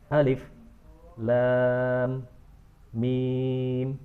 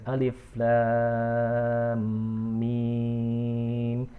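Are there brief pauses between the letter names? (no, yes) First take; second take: yes; no. First: Brief silent pauses separate the letter names. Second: The letter names run on without pauses. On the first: "dengan saktah" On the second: "Ada yang membacanya dengan alif lam mim"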